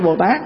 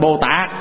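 First: The last syllable has a high rising tone. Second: The last syllable has a low, heavy, glottal tone. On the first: "chứ không phải Bồ Tát" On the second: "bỏ dấu nặng rồi nó trở thành Bồ Tát"

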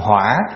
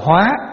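First: The word is said with a dipping, then rising pitch. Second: The word is said with a high rising pitch. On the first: It means fire. "để dấu hỏi vô, thành hỏa" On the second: It means to transform. "bỏ dấu sắc vô là thành hóa"

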